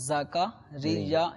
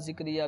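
First: The name is said with vowels a, a, i. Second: The name is said in a distorted, altered form. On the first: The speaker calls it right. "زا پہ بھی زبر, کاف پہ بھی زبر اور را کے نیچے زیر" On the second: The speaker calls it wrong. "یہاں یہ تلفظ بگڑ جاتا ہے, وہ ذکریا ذکریا بھی کرتے ہیں"

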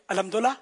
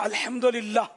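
First: The word is said quickly and rushed together. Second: The word is said at a careful, normal pace. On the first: The speaker calls it wrong. "جب یہ اسپیڈ پکڑتے ہیں نا فاسٹ بولنگ" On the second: The speaker calls it right. "جیسے میں نے بولا نا تو یہ ابھی بول لیں گے"

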